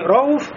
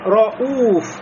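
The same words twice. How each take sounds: First: The u vowel is short. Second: The u vowel is held long. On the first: The speaker calls it wrong. "не «роуф»" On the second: The speaker calls it right. "И то же самое"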